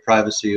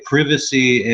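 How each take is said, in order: First: It is said in an American accent. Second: It is said in an English accent.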